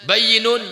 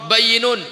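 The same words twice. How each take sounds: Both takes have the same delivery.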